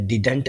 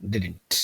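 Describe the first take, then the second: First: "didn't" with the second d hit hard and clear, rising; wrong stressed second d. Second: "didn't" with the second d barely touched, falling and softer; correct light d. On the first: Teacher showing students the wrong way, hard middle d. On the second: Teacher giving students the right way, light middle d. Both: Shown as a demonstration. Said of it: "didn't ऐसे नहीं बोलेंगे".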